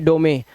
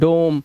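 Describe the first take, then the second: First: It ends with an extra sounded e vowel. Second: It ends in m with the final e silent. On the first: The speaker calls it wrong. "अब ऐसा नहीं पढ़ सकते आप" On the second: The speaker calls it right. "तो इसे ओ से पढ़ना है"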